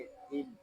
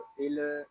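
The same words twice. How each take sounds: First: तिल with the ल closed and held still, no vowel after it; correct sukoon reading. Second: तिल with the ल not held still, said as a wrong example; wrong reading of til. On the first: Teacher to student, modelling the correct तिल. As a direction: read तिल with a clean resting ल. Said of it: "इसको सुकून के साथ अदा करेंगे". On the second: Teacher to student, showing the wrong तिल. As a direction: show the student how तिल should not be read. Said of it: "इसको तिल इस तरह नहीं पढ़ेंगे". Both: Shown as a demonstration.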